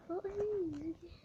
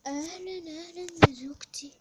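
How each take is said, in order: First: Said in the usual way. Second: Big loud hello to the wife; husband booming a welcome; loud greeting. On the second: Pretend. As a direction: greet her loudly with a rise.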